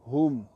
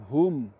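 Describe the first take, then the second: First: The word ends on a bare consonant. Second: The word ends on a bare consonant.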